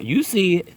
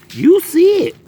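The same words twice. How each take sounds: First: Said in the usual way. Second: High, loud squeal of glee; excited squeal. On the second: Real, not acted. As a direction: squeal it in delight. Repeats line, much higher and louder.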